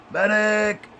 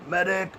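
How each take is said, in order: First: Much higher, louder mock battlefield yell; man down shout. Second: High mock call for a medic; man down shout. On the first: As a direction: bellow for the medic, hammed-up. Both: Snapped lily, calls for medic.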